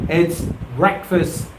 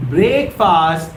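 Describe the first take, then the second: First: "breakfast" said short as "brekfəst", a little slower; correct pronunciation. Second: "breakfast" said as "break-fast", stretched and odd; mock the mistaken "breakfast" with a long "break"; wrong pronunciation. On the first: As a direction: give the right "breakfast", "brek-fust". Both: Shown as a demonstration. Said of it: "Well, it's not".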